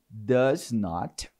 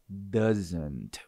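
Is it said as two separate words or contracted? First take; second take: separate; contracted. First: It is said as two separate full words. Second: It is contracted into one short word.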